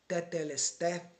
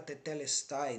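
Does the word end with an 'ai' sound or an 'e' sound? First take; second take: e; ai. First: The final syllable ends in an 'e' sound. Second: The final syllable ends in an 'ai' sound. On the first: This is how Greek was spoken around the first century. The speaker calls it right. "Que seria a pronúncia correta, né? Mais correta para o grego koiné" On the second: This is how Greek was spoken in fourth-century BC Athens. The speaker calls it wrong. "Reproduzindo a pronúncia, né? Do grego de Atenas, do século quatro antes de Cristo"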